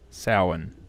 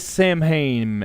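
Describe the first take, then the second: First: It uses the original traditional pronunciation. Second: It uses the common Western pronunciation. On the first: The speaker calls it right. "it is Samhain" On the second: The speaker calls it wrong. "we do say Samhain in the West"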